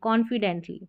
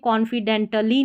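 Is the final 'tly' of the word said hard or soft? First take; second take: soft; hard. First: The final 'tly' is said softly and joined. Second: The final 'tly' is said hard and separately. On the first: The speaker calls it right. "सॉफ्टली बोलेंगे टली" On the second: The speaker calls it wrong. "नहीं बोलेंगे"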